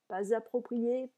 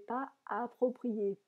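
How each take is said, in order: First: A z sound links pas to the next word. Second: The s of pas is silent, no link. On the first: "il faudrait faire une liaison" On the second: "Je ne fais pas la liaison volontairement"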